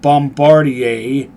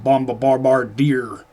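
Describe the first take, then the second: First: The word is pronounced the French way. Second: The word is pronounced a non-French way. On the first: The speaker calls it right. "that is how you pronounce that, it's French" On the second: The speaker calls it wrong. "the bandits don't pronounce it right, they pronounce it Bombardier"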